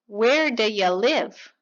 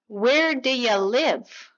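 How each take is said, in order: First: The words are reduced and blended together quickly. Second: The words are reduced and blended together quickly.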